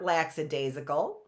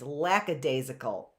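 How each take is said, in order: First: The first syllable sounds like 'lax'. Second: The first syllable sounds like 'lack'. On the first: The speaker calls it wrong. "It's not lax" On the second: The speaker calls it right. "It's lackadaisical"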